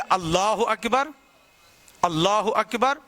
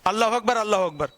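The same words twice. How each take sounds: First: There is a clear gap between the phrases. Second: Both phrases run together without a gap.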